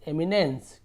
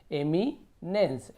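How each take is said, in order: First: Said in the usual way. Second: eminence drawn out as "emi - nens"; long pause after "emi" in eminence; very slow two-part sounding-out of eminence; broken into parts. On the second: Shown as a demonstration. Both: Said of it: "तोड़ तोड़ के पढ़िए".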